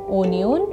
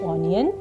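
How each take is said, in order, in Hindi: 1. शब्द 'oh' स्वर से शुरू होता है। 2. शब्द 'oh' स्वर से शुरू होता है।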